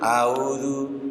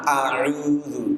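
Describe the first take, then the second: First: The word begins with a gliding 'au' sound. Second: The word begins with a clear, held 'a' sound. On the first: The speaker calls it wrong. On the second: The speaker calls it right.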